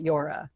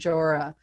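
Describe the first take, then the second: First: The name begins with a Y sound. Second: The name begins with a J sound. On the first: This is how many other people say the name. "a lot of people will pronounce it Yora" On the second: This is how the inventor says his own name. "he pronounces his name Jora"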